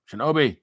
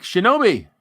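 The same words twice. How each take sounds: First: Said in the usual way. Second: Name called out loud and high; excited shout. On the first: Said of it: "repeats name plainly". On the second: Real, not acted. Reading donor names to chat, loud call.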